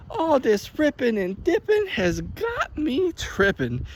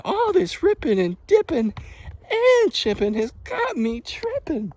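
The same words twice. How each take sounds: First: Put-on high, slow, cheeky kid voice; mock little brother. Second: High, slow cheeky rhyme; mock grandson. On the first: First take of the little brother's rhyme, high and slow. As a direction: play the smart-mouthed little brother. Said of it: "he's like". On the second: Imitating the grandson's rhyme, high and slow. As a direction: play the cheeky kid. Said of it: "the grandson's like".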